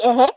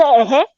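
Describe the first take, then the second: First: "uh-huh?" thrown back as a short, disbelieving question; clipped, rising "uh-huh?" of outrage; incredulous uh-huh. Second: Drawn-out "Uh-huh" with a lazy rise, as the official said it; stretched, dismissive "Uh-huh" with a slight rise. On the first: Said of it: "I said". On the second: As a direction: imitate the offhand "Uh-huh" she gave. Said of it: "She said". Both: Retold or imitated.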